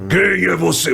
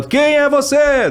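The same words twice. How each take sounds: First: Held in the throat. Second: Stretched, much higher cry; high-pitched shout. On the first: Dubber showing how Kratos shouts, throaty and held in. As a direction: keep the yell back in your throat. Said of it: "deixar mais aqui na garganta". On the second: Dubber showing the shout to avoid, high and drawn out. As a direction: let the voice fly up high on a slow yell. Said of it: "e não deixar ela". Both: Shown as a demonstration.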